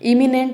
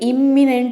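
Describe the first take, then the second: First: The m sound is single and short. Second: The m sound is doubled and held long. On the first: The speaker calls it right. "ఒక ఎం యొక్క శబ్దం అనేది silent అనమాట. ఇమినెంట్ అని పలకాలి" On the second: The speaker calls it wrong. "ఎం double ఎం ఉంది కాబట్టి ఇమ్మినెంట్ అని అంటారు. కాదు, రాంగ్ ప్రొనౌన్సియేషన్ అండి"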